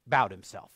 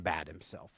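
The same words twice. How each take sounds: First: Said in the usual way. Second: "bowed" said like "bad"; mispronounced bowed. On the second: Real, not acted. Preacher reading of Saul stooping, mispronouncing bowed as "bad". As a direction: misread "bowed" with a short a, as in "bad". Misreads, then corrects the word.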